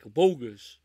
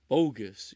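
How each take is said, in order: First: Loud, punchy movie-line bark; mock movie outburst; quoted catchphrase. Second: Said in the usual way. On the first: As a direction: shout the catchphrase like the film.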